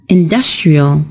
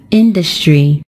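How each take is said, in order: First: "industrial" with the stress moved to the second syllable, in-DUS-tri-al; pronounced as a model word. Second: "industry" with the stress on the first syllable, IN-dus-try; pronounced as a model word. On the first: Teacher models the adjective "industrial", stress on DUS. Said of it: "the stressed syllable is also changed". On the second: Teacher models "industry" for students, stress on IN. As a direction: say "industry" as a slow, clear model for the class, first syllable strong. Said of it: "It is stressed on the first syllable". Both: Shown as a demonstration.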